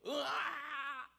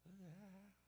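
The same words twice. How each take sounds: First: High, long roaring "aah"; loud battle cry. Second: Very soft "aah"; a small cry retreating into hiding; the battle cry turned right down; shrinking, muted cry. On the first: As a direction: let out a big, bold yell. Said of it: "처음에 큰 소리로 시작했단". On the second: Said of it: "하고서 숨어 들어갔단 말이에요". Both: Acted.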